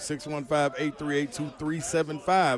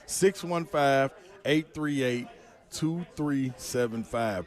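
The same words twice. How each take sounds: First: The number is said at normal speed. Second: The number is said more slowly.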